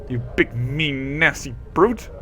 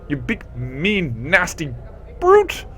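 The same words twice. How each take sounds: First: The word brute gets little extra stress. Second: The word brute is strongly stressed.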